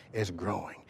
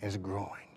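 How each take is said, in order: Both takes have the same delivery.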